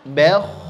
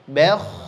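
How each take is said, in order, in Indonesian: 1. Bunyi b ringan dan bunyi kh berat. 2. Bunyi b ringan dan bunyi kh berat.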